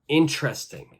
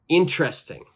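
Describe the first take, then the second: The two takes are said the same way.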